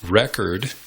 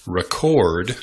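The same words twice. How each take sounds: First: Record as REK-erd; stress on first syllable. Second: Record as re-CORD; stress on second syllable. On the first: Teacher contrasts noun with verb, Record stressed on first syllable. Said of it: "is the noun". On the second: Teacher contrasts verb with noun, Record stressed on second syllable. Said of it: "is the verb". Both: Shown as a demonstration.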